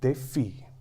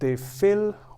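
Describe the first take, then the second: First: The double L sounds like a y-like glide. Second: The double L sounds like an English L. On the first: The speaker calls it right. "what you have over here is des filles" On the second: The speaker calls it wrong. "this is not des filles"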